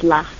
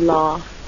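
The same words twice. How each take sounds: First: It is said in a northern accent. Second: It is said in a southern accent.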